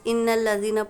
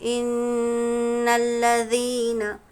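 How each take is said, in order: First: The doubled n is cut short without nasal hold. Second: The doubled n is held nasally for some seconds. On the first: The speaker calls it wrong. "Beginners, इन्नल लज़ीना पढ़ के आगे जाते हैं। ऐसा नहीं पढ़ना है" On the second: The speaker calls it right. "कुछ देर हम उसको नाक में आवाज़ को रोकना है"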